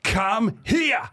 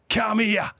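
First: High shout across the party; shouted call. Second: Called out high across a room; calling over. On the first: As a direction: bellow come here at him. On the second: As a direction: summon him over, raised pitch. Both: Retold or imitated. Duck calls him over.

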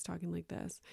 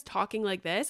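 First: Very soft, dropped-away voice; trailed-down mumble. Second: Starting off normal volume. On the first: Imitating husband on podcast, barely audible mumble. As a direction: let it sink until barely heard. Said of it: "he goes down like this". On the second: Imitating husband for podcast listeners, starting full-voiced. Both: Shown as a demonstration.

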